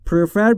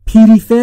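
First: The p and r join with no vowel. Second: A vowel is inserted between p and r. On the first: The speaker calls it right. "بین پی و آر صدایی وجود نداره" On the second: The speaker calls it wrong. "پریفر یا پرفر نگفتم"

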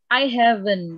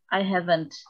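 First: The final t sound is dropped. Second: The final t sound is clearly pronounced. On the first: The speaker calls it wrong. "karena kalau tidak dibaca" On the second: The speaker calls it right. "tapi kalau te harus dibaca"

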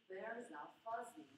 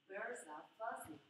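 Both takes have the same delivery.

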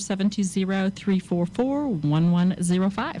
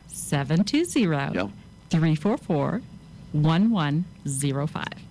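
First: The number is said at a quicker pace. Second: The number is said more slowly.

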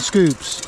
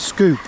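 First: The word ends with an s sound. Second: The word ends without an s sound. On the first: The speaker calls it wrong. "It's not scoops" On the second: The speaker calls it right. "it's scoop"

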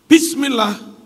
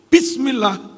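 First: The opening 'b' sound is clearly pronounced. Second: The same.

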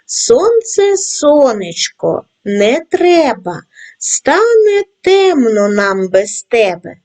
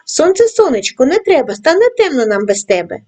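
First: The rhyme is read at a slow pace. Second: The rhyme is read at a fast pace. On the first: "Читаймо разом зі мною тричі, кожного разу пришвидшуючи темп" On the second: "кожного разу пришвидшуючи темп"

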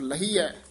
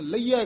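First: The ending has a clear h sound: hai. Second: The ending glides into a ya sound. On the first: The speaker calls it right. "हाहा ला के बोलना है" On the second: The speaker calls it wrong. "ये आम पाठी सिंह लहिया कह जाते हैं"

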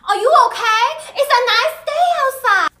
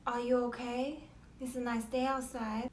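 First: It has a heavily exaggerated Asian accent. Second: It has a mild accent with few inflections.

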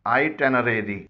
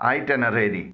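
Both takes have the same delivery.

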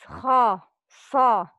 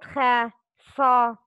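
First: The letters are said heavy, with a raised tongue. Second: The letters are said light, without a raised tongue. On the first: The speaker calls it right. "These letters are heavy. It's" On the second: The speaker calls it wrong.

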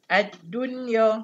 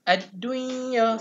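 First: The n is clear with no nasal merging. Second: The n is nasalized and merged into y. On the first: The speaker calls it right. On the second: The speaker calls it wrong.

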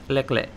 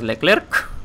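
First: The final consonant is silent. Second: The final consonant is pronounced. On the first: The speaker calls it right. "es Leclerc" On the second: The speaker calls it wrong. "No se pronuncia la K final, bueno, la C. Cada vez que lo hacéis, muere un francés"

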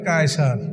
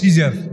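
First: The word begins with a K sound. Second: The word begins with an S sound. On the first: This is the Arabic form of the title. "কায়সার শব্দটা আপনি বানান করেন CASER" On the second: This is the Western form of the title. "ওরা উচ্চারণ করে সিজার"

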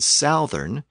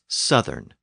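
First: The first vowel is the ow diphthong. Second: The first vowel is a short vowel. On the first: The speaker calls it wrong. "Notice that it's not south and southern" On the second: The speaker calls it right. "southern has a short vowel"

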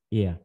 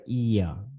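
First: A short vowel glides into a weak uh sound. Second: A long vowel is held before the ending. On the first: The speaker calls it right. "âm này là y ngắn mà, y ngắn đi với ơ này" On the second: The speaker calls it wrong. "chứ không phải"

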